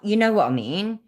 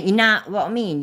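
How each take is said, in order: First: It is said in a careful standard accent. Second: It is said in a broad local accent. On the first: This is how people from here do not talk. The speaker calls it wrong. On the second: This is how people from here talk. The speaker calls it right. "we say"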